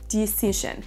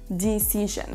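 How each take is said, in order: Both takes have the same delivery.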